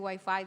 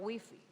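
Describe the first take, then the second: First: It is said the Dominican Spanish way. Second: It is said the way people there say it. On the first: "en vez de decir" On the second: "digo wifi ... a cómo se dice allá"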